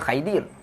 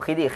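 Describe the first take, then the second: First: The first vowel is an 'ai' diphthong. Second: The first vowel is a short 'i' sound. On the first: This is how some other people read it. "Ada orang baca Khaidir" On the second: This is how Malay speakers pronounce it. "kita orang Melayu sebut Khidir"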